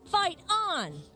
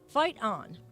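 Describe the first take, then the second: First: It is said with cheerleader excitement. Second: It is said flat and robotic.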